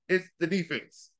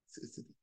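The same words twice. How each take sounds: First: It is said loudly. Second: It is said at normal volume.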